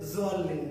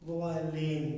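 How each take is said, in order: First: The first consonant is a plain z-sound. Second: The first consonant falls between d and z. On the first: The speaker calls it wrong. "Direct জোয়াল্লিন না" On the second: The speaker calls it right. "দোয়াল এবং জালের মাঝামাঝি"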